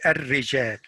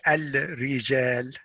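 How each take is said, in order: First: The L of the article is silent. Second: The L of the article is pronounced. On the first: The speaker calls it right. "it means that it's not pronounced" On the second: The speaker calls it wrong. "You don't say الرجال because that's wrong"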